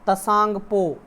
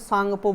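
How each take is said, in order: First: The word starts with a t sound. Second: The word starts with a plain s sound.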